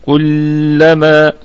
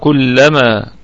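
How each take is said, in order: First: The doubled L is held for extra time. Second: The doubled L is not held extra. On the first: The speaker calls it wrong. "ما تجليش في أي حاجة تانية مشددة وتعطيني فيها زمن، يعني تجيش هنا وتقول كلما، هذا ليس صوابا" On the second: The speaker calls it right. "أتيت بالساكن وأتيت بالمتحرك لكن دون أن تعطي زمنا"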